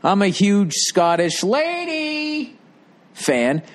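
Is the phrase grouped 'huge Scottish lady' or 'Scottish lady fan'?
huge Scottish lady. The words 'huge Scottish lady' are grouped together. The lady is large. The speaker calls it wrong.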